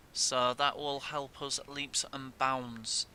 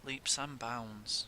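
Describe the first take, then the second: First: Slow emphatic. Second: Soft repeat. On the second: Repeated softly. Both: Real, not acted.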